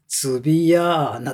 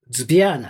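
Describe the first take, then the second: First: Vowels are inserted between the opening consonants. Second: The opening consonants run together without vowels. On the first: "日本人はそれはズビアーナって5 つぐらいにやっちゃう" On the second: "ロシア語のズビアーナ"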